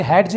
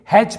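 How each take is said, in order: First: हैड्ज said "haid-j" with audible D; D sounded. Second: हैज said "haij" with no D; silent D. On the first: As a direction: put a D before the J in हैड्ज. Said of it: "इसे हैड्ज नहीं". (हैड्ज में ज से पहले ड बोलें) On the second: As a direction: go straight to the J in हैज. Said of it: "हैज पढ़ेंगे". (हैज में ड silent) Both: Shown as a demonstration.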